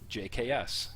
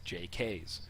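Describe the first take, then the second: First: The name is spelled out letter by letter. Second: The name is run together as one word. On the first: The speaker calls it right. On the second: The speaker calls it wrong.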